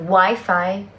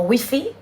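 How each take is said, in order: First: It is said with an English pronunciation. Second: It is said with a Spanish pronunciation. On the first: "que es el" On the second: "en España dice mucho"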